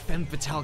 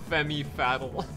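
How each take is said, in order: First: The first word has one syllable, 'fem'. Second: The first word has two syllables, 'femmy'. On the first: The speaker calls it right. "I've been saying it right the whole time" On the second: The speaker calls it wrong. "I had to slip one in"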